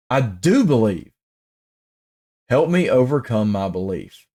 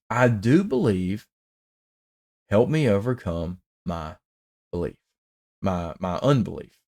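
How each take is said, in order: First: Said in the usual way. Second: Hushed re-reading of the plea; softer, hushed reread. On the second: Shown as a demonstration. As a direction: drop to a soft, hushed voice for the plea. Re-reads the plea after "wow.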